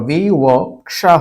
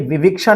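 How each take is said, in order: First: The second syllable has an 'a' vowel. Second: The second syllable has an 'i' vowel. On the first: The speaker calls it right. "विवक्षा होगा" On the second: The speaker calls it wrong. "ध्यान रखिए विविक्षा नहीं होगा"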